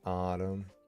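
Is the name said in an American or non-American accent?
American. It is said in an American accent. The speaker calls it wrong. "not autumn"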